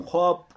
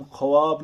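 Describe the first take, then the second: First: Said in the usual way. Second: ख्वाब said as "kha-waab", with the W voiced; sounded silent vav. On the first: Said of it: "हम ख्वाब कहते हैं". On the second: Shown as a demonstration. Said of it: "हम ख्वाब नहीं कहते हैं". (ख्वाब میں واؤ پڑھ کر "خَ-واب" بولیں)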